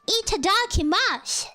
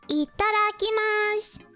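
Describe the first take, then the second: First: It is said with an English-style accent. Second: It is said with a Japanese-style accent. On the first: The speaker calls it wrong. "And not some cringy" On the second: The speaker calls it right.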